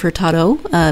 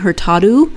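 First: The final vowel is said the English way. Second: The final vowel is said the Portuguese way. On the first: The speaker calls it right. "instead of Hurtado" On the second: The speaker calls it wrong. "when there's an O on the end of the word, it's pronounced as an O. And I kept catching myself ... saying Hurtado"

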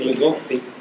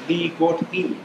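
First: The T and H blend into one sound. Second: The T and H are pronounced separately. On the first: The speaker calls it wrong. "It don't say ligofi" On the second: The speaker calls it right. "It says li-got-hi. The T and H make their own separate sound"

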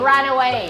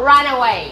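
The two takes are said the same way.

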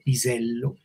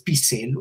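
First: The s sound is voiced, with slight buzzing. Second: The s sound is voiceless, without buzzing. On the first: The speaker calls it right. "vibra un poquito pisello" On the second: The speaker calls it wrong. "no es pisello"

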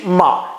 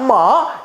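First: It carries the lower yang departing tone. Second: It carries the higher yin rising tone. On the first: "阳去" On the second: "阴上"

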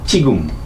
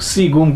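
First: The word starts with a ch-like sound. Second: The word starts with an s sound. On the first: The speaker calls it right. "এইটাকে বলবে চিগুম, চ দিয়ে বলবে" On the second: The speaker calls it wrong. "সিগুম করে বলবে না"

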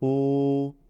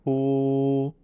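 No difference in how they are said.

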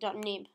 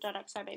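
First: The word begins with an N sound. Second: The word begins with a different sound. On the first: The speaker calls it right. "You actually pronounce it .nib" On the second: The speaker calls it wrong. "not .xib"

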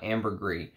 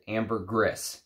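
First: The final S sound is left silent. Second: The final S sound is pronounced. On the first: The speaker calls it wrong. "not ambergris" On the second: The speaker calls it right. "the people in the trade pronounce it ambergris"

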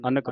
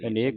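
First: The second vowel is a short 'a' sound. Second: The second vowel is a long 'e' sound. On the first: The speaker calls it right. "ਅਨਕ ਪੜਨਾ ਇਹਨੂੰ" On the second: The speaker calls it wrong. "ਅਨੇਕ ਨਹੀਂ ਪੜਨਾ"

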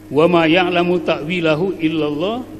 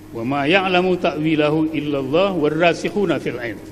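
First: The reading stops after the word illallah. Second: The reading continues past illallah without stopping.

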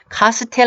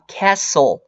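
First: It is said with Korean-style syllables, ka-seu-tel. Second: It is said with English-style syllables, cas-sle. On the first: The speaker calls it wrong. "카스텔 아닙니다" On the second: The speaker calls it right. "Castle이라고 발음하셔야 돼요"

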